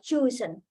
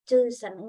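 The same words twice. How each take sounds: First: One syllable is clearly stressed. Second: It is said flat with no stressed syllable. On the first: The speaker calls it right. "misal chosen. Kan seperti itu ya" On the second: The speaker calls it wrong. "mungkin terlalu lempeng ya"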